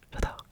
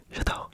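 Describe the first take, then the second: No difference in how they are said.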